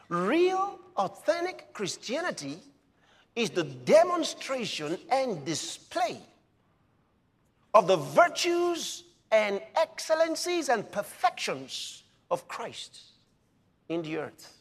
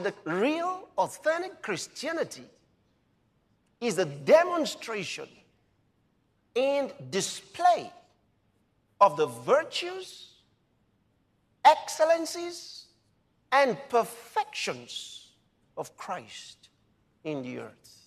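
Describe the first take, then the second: First: It is said fast. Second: It is said slowly.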